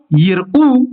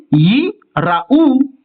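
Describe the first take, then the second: First: Yirou joined as yir-OU, without a stop; no pause. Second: Yi, a stop, then raou stressed on ou; yi... ra-OU, with a full ra syllable; pause, final stress. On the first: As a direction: run yi straight into the r of yirou. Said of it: "pas faire un arrêt". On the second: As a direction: break after yi and sound raou as ra-OU. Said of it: "c'est la dernière syllabe qui est accentuée". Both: Shown as a demonstration.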